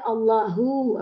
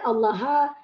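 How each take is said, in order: First: The word ends with an u vowel. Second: The word ends with an a vowel. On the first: The word is the doer of the action. The speaker calls it right. "mesti hu" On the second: The word is not the doer of the action. The speaker calls it wrong. "Tak boleh"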